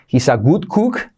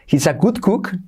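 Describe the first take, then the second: First: The vowel in cook is a closed oo sound. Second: The vowel in cook sounds almost like o. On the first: The speaker calls it wrong. "No se dice" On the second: The speaker calls it right. "Una U casi como una O"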